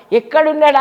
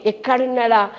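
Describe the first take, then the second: First: Higher, louder call of ఎక్కడున్నాడా; anxious searching call. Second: Said in the usual way. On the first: Acted. Mary at the tomb calling out for her Lord, louder and anxious. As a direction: cry out ఎక్కడున్నాడా, rising in urgency.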